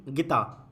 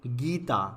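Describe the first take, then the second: First: गीता said as gitaa, short i; wrong short vowel. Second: गीता with a long गीई; correct long vowel. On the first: Teacher reads out the misspelling, short vowel. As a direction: cut the गी of गीता down to गि. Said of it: "गीता नाम नहीं होता". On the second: Teacher gives the right name, long vowel. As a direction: hold the ee in गीता. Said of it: "वो क्या होता है?". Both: Shown as a demonstration.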